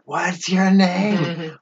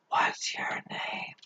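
First: It is said louder, almost shouting. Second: It is said at a normal, quiet volume.

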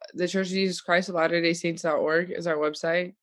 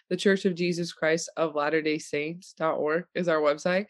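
First: It is spoken at a normal, quicker pace. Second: It is spoken at a slower, deliberate pace.

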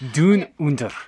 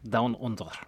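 First: It is said in a put-on Australian accent. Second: It is said in the speaker's ordinary accent.

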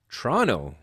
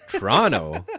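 First: The middle syllable is dropped, like Tronno. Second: All three syllables are fully pronounced.

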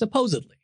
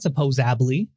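First: The middle consonant is a d sound. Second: The middle consonant is a b sound. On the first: The speaker calls it right. "the real word is supposedly" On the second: The speaker calls it wrong. "It's not supposably"

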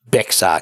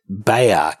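First: The x is sounded in the word. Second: The x is silent in the word. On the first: The speaker calls it wrong. "not Bexar County" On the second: The speaker calls it right. "It's actually pronounced Bexar County"

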